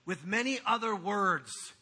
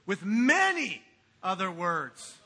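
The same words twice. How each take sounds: First: Said in the usual way. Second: "many" drawn out slow and loud; stressed, slow. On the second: Shown as a demonstration. Pastor relishing preachers' favourite verse, slow and loud. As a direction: savour "many" in "With many other words". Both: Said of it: "That's a preacher's favorite verse".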